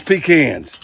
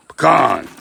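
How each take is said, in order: First: "pecans" with stress up front, PEE-cans; the other folks' PEE-cans. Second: "Pecan" with a long open KAHN; Pecan as puh-KAHN. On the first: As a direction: say "pecans" like pee-cans, first syllable long. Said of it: "Some people pronounce this pecans". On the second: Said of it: "That's how we pronounce it around here". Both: Shown as a demonstration.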